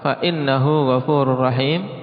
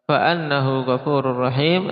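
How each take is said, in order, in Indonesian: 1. Partikel itu diucapkan dengan vokal 'i'. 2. Partikel itu diucapkan dengan vokal 'a'. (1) "Kalau dibaca dengan kasrah" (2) "Ini kalau dibaca dengan fathah"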